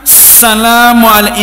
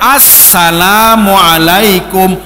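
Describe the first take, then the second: First: The opening article 'as-' is weak or blurred. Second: The opening article 'as-' is clearly pronounced. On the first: The speaker calls it wrong. "itu salah" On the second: The speaker calls it right. "Yang benar bagaimana?"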